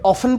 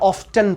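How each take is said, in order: First: The 't' sound is left out. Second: The 't' sound is clearly pronounced. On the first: "ऑफन पढ़ा जाए" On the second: "या ऑफ्टन पढ़ा जाए"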